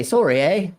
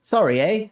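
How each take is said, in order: First: "Sorry, eh?" with a lilting Canadian rise on "eh"; mock Canadian accent. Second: "Sorry, eh?" pitched higher, Canadian "sorry" with "eh" rising; hammed-up Canadian greeting; mock Canadian accent. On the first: Teaching chat how Canadians greet, in a light mock Canadian accent. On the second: Showing chat the Canadian hello, in a hammed-up Canadian accent. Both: Shown as a demonstration. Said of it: "Canadians say hello is".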